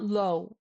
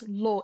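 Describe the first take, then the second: First: The vowel glides like an English diphthong. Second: The vowel is short, crisp and steady. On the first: The speaker calls it wrong. "It's not low" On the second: The speaker calls it right. "it's lo. Very crisp"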